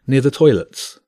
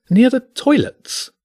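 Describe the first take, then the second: First: Said in the usual way. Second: Much higher, slow, disdainful repeat of "Near the toilets?"; the maitre d' can't believe the request; incredulous echo. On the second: Acted. Maitre d' echoes in disbelief.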